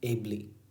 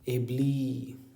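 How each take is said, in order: First: The final vowel is short. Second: The final vowel is long. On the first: The speaker calls it right. "So it is short in nature" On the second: The speaker calls it wrong. "कभी तुम ऐसा नहीं पढ़ते ना, this is not the style"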